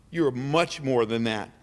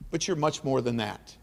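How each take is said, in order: First: "You're much more than that" repeated slower and weightier, leaning on "You're"; slow down and press "You're" to drive the praise home; emphatic slower repeat. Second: Said in the usual way. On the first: Shown as a demonstration. Praising Melody at the awards, slow emphatic repeat.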